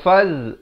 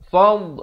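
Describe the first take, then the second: First: The word ends in a 'z' sound. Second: The word ends in an emphatic 'd' sound. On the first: The speaker calls it wrong. "Jangan baca faz, faz jadi huruf lain nanti ya" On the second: The speaker calls it right. "fad gitu ya"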